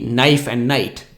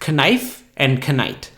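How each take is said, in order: First: Both words begin with an n sound. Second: Both words begin with a k sound. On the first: This is how the words are said today. "these days we say knife and night" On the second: This is how the words were said in the past. "used to be pronounced knife and knight"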